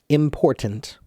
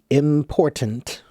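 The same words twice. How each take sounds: No difference in how they are said.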